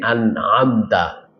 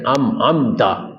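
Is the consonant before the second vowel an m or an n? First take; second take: n; m. First: An n sound comes before the second vowel. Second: An m sound comes before the second vowel. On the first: The speaker calls it right. "mestinya an'amta" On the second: The speaker calls it wrong. "bacanya am-amta, itu kan beda"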